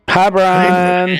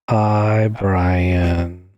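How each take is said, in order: First: It is said fast. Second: It is said slowly.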